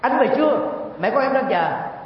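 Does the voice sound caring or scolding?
scolding. It is said in a harsh, scolding tone. The wife is angrily scolding her husband. The speaker calls it wrong. "thì cái này không phải là quan tâm nữa, đang nạt độ, đang chửi bới"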